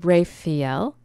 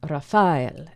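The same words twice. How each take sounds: First: The stress is not on the middle syllable. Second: The stress is on the middle syllable. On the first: This is the modern Latin pronunciation. "that's our Latin, our modern Latin pronunciation" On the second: This is the Hebrew pronunciation. "the Hebrew would say Raphael, Raphael. And so with the stress being in the middle of the word"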